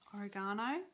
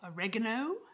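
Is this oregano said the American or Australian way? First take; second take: Australian; American. First: It is said with an Australian pronunciation. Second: It is said with an American pronunciation. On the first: "We call it oregano" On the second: "for my American viewers"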